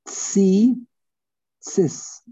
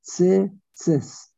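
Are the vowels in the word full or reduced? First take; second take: full; reduced. First: Both vowels are pronounced as full i sounds. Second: Both vowels are reduced to short murmured sounds. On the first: The speaker calls it right. "It's tzitzis" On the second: The speaker calls it wrong. "Two shvas"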